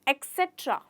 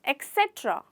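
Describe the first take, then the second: First: The word begins with an 'eks' sound. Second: The same.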